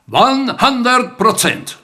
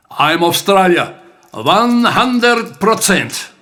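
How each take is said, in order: First: Louder, higher, slow proud finish; proud declaration. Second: Louder, slow proud declaration; loud and clear. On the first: Acted. Son echoing his father's words to him, proud and loud. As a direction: ring it out as the poem's proud last line. Closing echo of dad's line. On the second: Retold or imitated. Dad answering the heckler at the bar, loud and clear. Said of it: "said with voice loud and clear".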